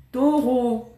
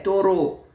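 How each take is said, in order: First: Said in the usual way. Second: Taureau with a rolled Russian r; taureau, tongue-trilled r, Russian style; Russian accent in French. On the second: Shown as a demonstration. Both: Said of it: "Taureau avec l'accent russe".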